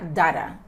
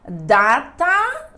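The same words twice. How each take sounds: First: The middle consonant is a soft d-like tap. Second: The middle consonant is a crisp t sound.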